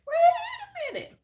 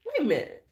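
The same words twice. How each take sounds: First: Squealed very high through laughter, slow; laughing disbelief. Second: Said in the usual way. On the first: Retold or imitated. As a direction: wait a minute, cracking up. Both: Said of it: "I was like".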